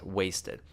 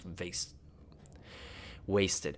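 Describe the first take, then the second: First: The word begins with a W sound. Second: The word begins with a V sound. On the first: The speaker calls it right. "No, it's wasted" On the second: The speaker calls it wrong. "I mix up my W's and V's all the time"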